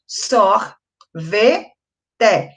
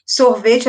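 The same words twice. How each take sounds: First: "Sor, ve, te" with a pause after each syllable; three separate syllables. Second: Said in the usual way. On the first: Shown as a demonstration. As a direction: count out "Sor, ve, te" piece by piece. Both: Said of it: "eu tenho três sílabas".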